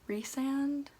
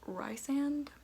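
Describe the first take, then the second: First: The first syllable sounds like 'reese'. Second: The first syllable sounds like 'rice'. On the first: The speaker calls it right. "Reese sounds so much better than Rice" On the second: The speaker calls it wrong. "I pronounced Rhysand as Rysand"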